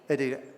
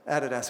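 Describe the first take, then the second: First: It is said with the local, American-style pronunciation. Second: It is said with the London, British-style pronunciation. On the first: This is how people say it here. "what do we say here?" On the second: This is how people said it in London. "it was over there"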